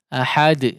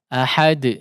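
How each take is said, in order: No difference in how they are said.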